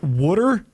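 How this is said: It is said with a Philadelphia accent.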